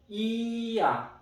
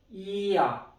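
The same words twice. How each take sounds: First: It is said slowly, both vowels distinct. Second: It is said fast, vowels run together.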